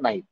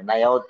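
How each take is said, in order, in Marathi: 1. हे एका छोट्या, आखूड शब्दात दाबून म्हटलं जातं. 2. हे दोन वेगळे, पूर्ण शब्द म्हणून म्हटलं जातं. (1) "नाही आहोतचं अभ्रंश झालंय आणि ते नाहीत झालंय" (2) "नाही आहोत हे प्रॉपर मराठी झालं"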